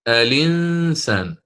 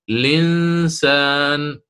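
First: The word starts with a vowel before the l. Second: The word starts directly with the l sound. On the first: "الإنسان بالنقل" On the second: "أن يحذف همزة الوصل ابتداء دائما، فيحذفها ويبدأ بلا مجردة"

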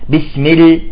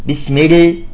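Both takes have the same delivery.

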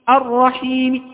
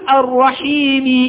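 First: The final vowel is only faintly hinted. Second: The final vowel is fully voiced. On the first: "قلت الرحيم الرحيم هكذا، هذا نسميه روم" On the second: "لم أقل الرحيم"

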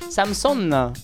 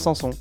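First: The name is said with every letter sounded. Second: The name is said without every letter sounded.

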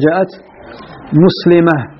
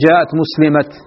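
First: The final word ends in an h sound. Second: The final word ends in a t sound. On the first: This is the form most Arabs use. "أكثر العرب يقولون جاءت مسلمة" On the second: This is the form of the Tayy tribe and the people of Yemen. "أما طيء وأهل اليمن فإنهم يثبتون أتاء"

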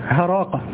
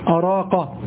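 First: The word begins with an h sound. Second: The word begins with a glottal stop. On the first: "أن الهمزة قلبت هاء، هذا شاذ" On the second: "تسمع أراقة"

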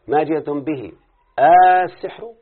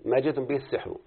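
First: The vowel before 'sihr' is drawn out long. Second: The vowel before 'sihr' is kept short. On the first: It asks whether what they brought is magic. "هذا المد اللي احنا بنقوله" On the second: It states that what they brought is magic. "الباقون بغير مد"

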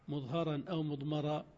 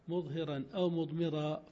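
First: The vowel after h and m is a. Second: The vowel after h and m is i. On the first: The particle itself is shown or hidden. "وعلى الفتح" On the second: The speaker is the one showing or hiding it. "فإن كسرت"

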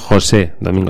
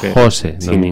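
First: The stress in José is on the last syllable. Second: The stress in Jose is on the first syllable. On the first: The speaker calls it wrong. "que no José Domingo" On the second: The speaker calls it right. "Sin tilde la E"

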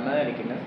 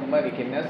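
First: The first vowel of malikin is long. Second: The first vowel of malikin is short. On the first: The speaker calls it wrong. "tidak ada malikin nas" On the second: The speaker calls it right. "di sini tidak panjang"

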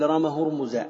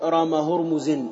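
First: The name ends in a short -a without n. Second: The name ends in -in with an n. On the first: The speaker calls it right. "بل رام هرمز" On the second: The speaker calls it wrong. "ولا تقول رام هرمز"

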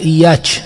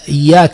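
First: A letter in the word is pronounced unclearly. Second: The word is pronounced clearly and fully. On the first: "يقول إياك مثلا" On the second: "أو مثلا إياك"

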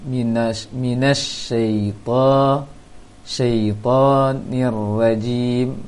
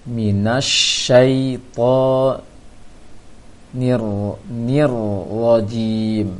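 No difference in how they are said.

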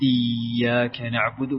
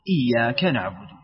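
First: A vowel is drawn out long. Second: The vowels are kept short. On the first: The speaker calls it wrong. "كذا أيضا مديتها" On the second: The speaker calls it right. "لا بسيطة"

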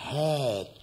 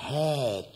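First: It is said in a lightly coquettish, pampered way. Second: The same.

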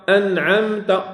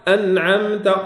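No difference in how they are said.

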